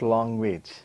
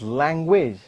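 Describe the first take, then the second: First: The first vowel is an open 'ah' sound. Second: The first vowel sounds like the vowel in 'bat'. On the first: The speaker calls it wrong. "not language. we don't use the word ah" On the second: The speaker calls it right. "So it is language, It is this sound that is used, like bat"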